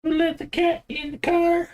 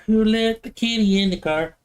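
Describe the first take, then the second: First: Very high squeaky pet-talk question; squeaky baby talk. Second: Milder cooing question. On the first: Teasing the cat about a cat in the racing car, very high squeak. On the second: Same question again. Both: Pretend.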